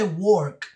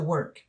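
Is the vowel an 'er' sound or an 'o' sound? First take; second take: o sound; er sound. First: The vowel is a rounded o sound. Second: The vowel is an er sound. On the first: The speaker calls it wrong. "aunque se escribe con O, no se dice work" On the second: The speaker calls it right. "se dice work"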